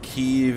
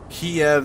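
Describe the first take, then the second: First: The name is pronounced the Ukrainian way. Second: The name is pronounced the Russian way. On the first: "Kyiv is the Ukrainian way" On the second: "Kiev is the Russian way of saying it"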